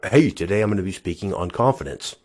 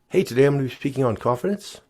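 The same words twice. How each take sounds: First: The voice falls at the end of the sentence. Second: The voice rises at the end of the sentence. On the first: The speaker sounds sure of themselves. The speaker calls it right. "rather than saying" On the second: The speaker sounds unsure and nervous. The speaker calls it wrong. "the uptones at the end of a statement"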